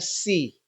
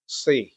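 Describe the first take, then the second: First: The s sound is thin and light. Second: The s sound is thick and heavy. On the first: The speaker calls it wrong. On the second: The speaker calls it right. "agak tebal"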